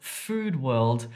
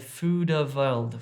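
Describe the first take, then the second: First: The d runs straight into the w. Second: A short vowel is inserted after the d. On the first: The speaker calls it right. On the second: The speaker calls it wrong.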